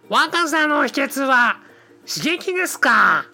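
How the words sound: It is said in a put-on cartoon-character voice. The speaker calls it right. "これが信代になると、"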